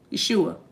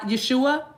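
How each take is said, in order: First: "Yeshua." low and soft, falling, as the spirit said it; name said the spirit's way. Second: "Yeshua?" tried out as a question, pitch rising at the end; questioning try at the name. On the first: Repeating how Yeshua says "Yeshua." low and softly. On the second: Checking with the spirit how to say "Yeshua?" with a rising question. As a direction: sound out "Yeshua?" tentatively, asking if it's right. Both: Shown as a demonstration. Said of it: "That's how you say it".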